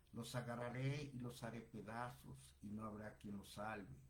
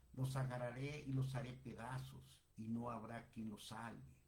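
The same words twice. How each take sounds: No difference in how they are said.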